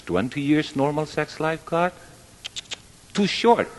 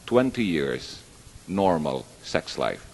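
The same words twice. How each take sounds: First: High-pitched, rising incredulous protest; acted-out objection, climbing in pitch; mock complaint. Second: Said in the usual way. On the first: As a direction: imitate a man complaining to God, pitched up. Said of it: "the man complained".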